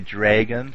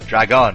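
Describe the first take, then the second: First: The first vowel is a long 'ay' sound. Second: The first vowel is a short 'a' sound. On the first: This is how Canadians say it. "since we're Canadian, we say dragon, like D-R-A-Y-G-U-N" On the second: This is how non-Canadians say it. "most of my audience isn't Canadian. Dragon, I assume"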